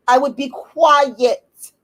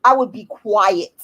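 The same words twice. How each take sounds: First: Slow emphatic repeat. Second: Said in the usual way. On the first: Real, not acted.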